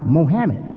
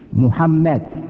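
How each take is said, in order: First: The first syllable sounds like 'mo'. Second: The first syllable sounds like 'muh'. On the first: The speaker calls it wrong. "Some people think my name is supposed to be pronounced Mohammed" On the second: The speaker calls it right. "is the correct pronunciation"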